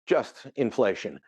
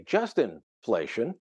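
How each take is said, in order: First: Just, pause, then inflation said apart; pause after just. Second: "just inflation" run together slowly as one word. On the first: Commentator showing the right way: pause after "just". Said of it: "I say that you can say that it's". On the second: Commentator showing the wrong way: "just inflation" slurred together. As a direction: blur "just inflation" so it sounds like Justinflation. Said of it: "But if you pronounce it wrong, if you say". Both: Shown as a demonstration.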